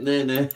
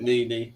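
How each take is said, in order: First: NENE said as "neh-neh"; both vowels of NENE like "eh", not "ee"; alternative pronunciation. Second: NENE said as "nee-nee"; both vowels of NENE like "ee", not "eh"; alternative pronunciation. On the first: Trying the streamer's name, NENE said "neh-neh". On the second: Checking the streamer's name, NENE said "nee-nee". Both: Shown as a demonstration. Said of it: "Or is it Nene?".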